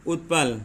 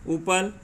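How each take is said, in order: First: उत्पल with a clear half t before the p; teacher's demo of उत्पल, with the added t; careful pronunciation. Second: उपल said slowly, with a plain p and no t sound; teacher's demo of उपल, with no half t; careful pronunciation. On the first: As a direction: land the t in उत्पल distinctly. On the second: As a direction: spell out उपल crisply for the class. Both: Shown as a demonstration. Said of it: "पढ़ के देखिए एक बार फिर से".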